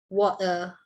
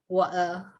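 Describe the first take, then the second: Both takes have the same delivery.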